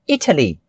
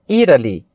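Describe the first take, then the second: First: The middle T is a clear, crisp T. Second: The middle T is a soft flap like D. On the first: "Uma pronúncia mais britânica ... seria Italy, exatamente com o som de T" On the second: "O americano ele já puxa mais esse T com um som assim, intermediário entre o D e o R, que fica Italy"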